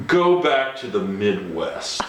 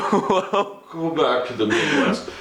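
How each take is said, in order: First: Dismissive put-down. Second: Dismissive put-down, laughing. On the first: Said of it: "looks me up and down". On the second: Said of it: "she looked at me and said". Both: Retold or imitated.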